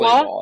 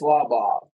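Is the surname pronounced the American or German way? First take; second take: American; German. First: The surname is said with American pronunciation. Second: The surname is said with German pronunciation. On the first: "but it's pronounced" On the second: "if you were in Germany right now, you'd say it's Slabach"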